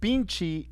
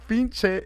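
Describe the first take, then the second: First: The word ends with an 'ee' vowel. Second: The word ends with an 'eh' vowel. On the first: The speaker calls it wrong. "pinchi is a derivative of it" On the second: The speaker calls it right. "pinche is the proper way"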